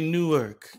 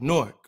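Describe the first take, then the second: First: It is not shortened to sound like 'Nork'. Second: It is shortened to sound like 'Nork'. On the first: The speaker calls it wrong. "If you're from Jersey, you don't say Newark" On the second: The speaker calls it right. "You say Newark. N-O-R-K"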